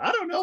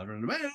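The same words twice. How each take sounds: First: Very high, squeaky reply; high zany character voice. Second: Soft, low, laid-back reply; low mumbled character voice. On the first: Teacher showing the poem's shifting voices: high squeaky answer. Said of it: "get back to Robin Williams". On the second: Teacher showing the poem's shifting voices: low soft answer. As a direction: drop down low and easy. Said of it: "low voice". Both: Shown as a demonstration.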